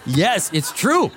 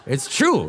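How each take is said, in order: First: Laughing. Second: Said in the usual way. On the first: Real, not acted. Laughing agreement with audience.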